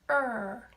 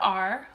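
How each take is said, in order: First: The letter is said as its sound, 'er'. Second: The letter is said as its name, 'ar'. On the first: The speaker calls it right. "we say er" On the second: The speaker calls it wrong. "we don't say R for R"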